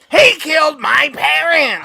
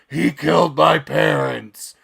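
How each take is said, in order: First: It is said in a shrill comedian-style voice. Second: It is said in a gravelly Batman-style voice. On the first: "I thought he was going to sound more like Gilbert Godfrey" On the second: "that's my shitty Christian Bale interpretation"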